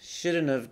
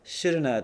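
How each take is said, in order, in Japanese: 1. 'have' は完全に発音されます。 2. 'have' は短い母音に弱まります。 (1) "shouldn't have で十分ですよ" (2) "shouldna という発音で喋ってる"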